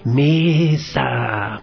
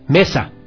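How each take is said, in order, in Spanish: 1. La palabra se dice suavemente. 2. La palabra se dice a volumen medio. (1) "digamos con poquita fuerza" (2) "Ahora nos quedemos intermedios"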